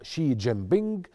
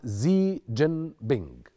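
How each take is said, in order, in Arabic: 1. الاسم يبدأ بصوت 'sh'. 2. الاسم يبدأ بصوت 'z'. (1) "البعض ينطقها شي جين بينج" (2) "والبعض الآخر ينطقها زي جين بينج"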